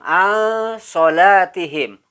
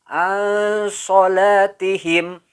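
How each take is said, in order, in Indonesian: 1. Bunyi n tersamar dan sengau. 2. Bunyi n tersamar dan sengau.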